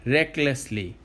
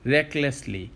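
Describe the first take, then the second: No difference in how they are said.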